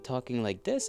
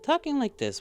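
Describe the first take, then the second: First: It is said at a lower pitch. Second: It is said at a higher pitch.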